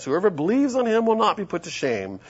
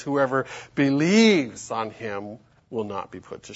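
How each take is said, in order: First: Said in the usual way. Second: "believes" stretched out slowly; slow down and lean on "believes"; measured reading with a long, emphatic "believes"; stress on "believes". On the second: Shown as a demonstration. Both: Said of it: "the emphasis there is you gotta believe".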